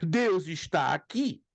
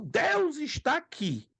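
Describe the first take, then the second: First: It is said as a questioning pergunta. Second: It is said as a surprised exclamation.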